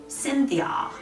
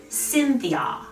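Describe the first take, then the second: No difference in how they are said.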